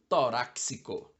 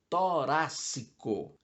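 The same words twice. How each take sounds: First: An 's' sound comes before the second c. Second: No 's' sound comes before the second c. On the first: The speaker calls it wrong. "com som de S C" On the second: The speaker calls it right. "O adequado é torácico"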